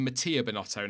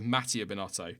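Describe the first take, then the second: First: Mattia said ma-TEE-a, stress in the middle; new pronunciation of Mattia. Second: Mattia said MAT-ee-a, stress up front; old pronunciation of Mattia. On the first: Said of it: "I've started saying Mattia Binotto now". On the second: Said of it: "instead of Mattia Binotto". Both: Shown as a demonstration.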